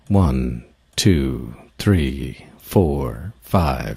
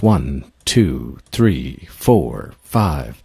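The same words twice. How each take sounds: First: It is counted at a slow pace. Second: It is counted at a medium pace.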